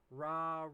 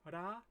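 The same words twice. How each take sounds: First: The R is made without a tongue flick. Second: The R is a quick downward tongue flick. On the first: The speaker calls it wrong. "and not ra" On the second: The speaker calls it right. "it should be ra"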